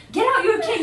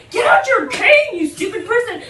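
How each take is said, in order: First: Insistent retold order, raised and louder; urgent order. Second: Exasperated yell. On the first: Telling a blind friend to take out the cane, insistent. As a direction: urge him, voice lifted. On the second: Retold or imitated. Scolding a blind friend on the bus, exasperated yell. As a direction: really yell the order at your friend, half laughing. Retold order repeated, more exasperated.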